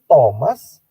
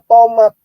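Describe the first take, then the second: First: The name ends with an s sound. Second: The name ends with a t sound. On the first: The speaker calls it right. "Tapi maksudnya dia Thomas" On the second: The speaker calls it wrong. "tidak bisa melafalkan huruf S di belakang"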